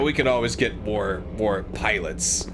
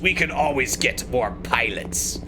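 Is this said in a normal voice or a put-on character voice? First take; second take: normal; character voice. First: It is said in the speaker's ordinary voice. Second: It is said in a put-on villain character voice.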